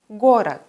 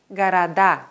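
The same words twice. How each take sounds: First: "город" with a long clear first O, weak second vowel; stress on the stem. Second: "города" with weak o's and a long final DA; stress on the ending. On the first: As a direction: hit GO in "город". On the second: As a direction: hit the last syllable of "города". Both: Shown as a demonstration. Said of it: "wandert die Betonung vom Wortstamm auf die Endung".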